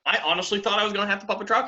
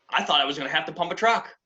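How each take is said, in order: First: Higher, rushed emphatic repeat; rising alarm. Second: Said in the usual way. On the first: Real, not acted. New driver confessing his dread, rising and rushed. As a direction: climb in pitch as the dread builds.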